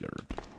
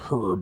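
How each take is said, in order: First: It is said with a silent h, American style. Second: It is said with a pronounced h, European style.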